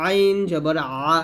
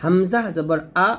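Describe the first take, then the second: First: Slow, drawn-out আ squeezed in mid-throat; pressed ain. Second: আ a clean glottal start, no squeeze; light hamza. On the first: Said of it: "চাপ দিয়ে". (চাপ দিয়ে আ) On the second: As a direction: open the throat on হামজা and আ. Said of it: "কণ্ঠনালীর শুরু থেকে". (হালকা করে আ) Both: Shown as a demonstration.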